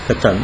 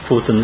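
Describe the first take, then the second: First: The first vowel sounds like 'a'. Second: The first vowel sounds like 'o'. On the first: This is how it is said in Israel. "как здесь катан говорят" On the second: This is how it was said in Europe. "а там котан в Европе"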